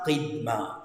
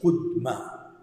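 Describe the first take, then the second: First: The first vowel is an i sound. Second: The first vowel is a u sound. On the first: The speaker calls it wrong. "c'est pas qidma" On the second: The speaker calls it right. "c'est qudma"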